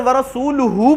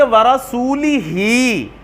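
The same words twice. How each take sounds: First: ورسولہ ending -luhu with pesh; right reading rasuluhu. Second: ورسولہ drawn out ending -lihi; very slow ورسولہ with zer on lam-ha; wrong reading rasulihi. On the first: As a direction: say ورسولہ with u vowels. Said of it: "لیکن اگر". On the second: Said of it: "زیر پڑھنے کی صورت میں". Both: Shown as a demonstration.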